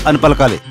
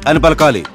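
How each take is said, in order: The two takes are said the same way.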